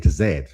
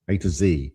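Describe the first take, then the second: First: The last letter is said the British way, zed. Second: The last letter is said the American way, zee.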